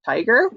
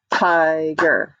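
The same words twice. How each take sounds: First: Said in the usual way. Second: "Tiger" as two long, even beats; split into syllables. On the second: Shown as a demonstration. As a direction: clap out "Tiger" as TI-GER. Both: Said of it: "Two syllables".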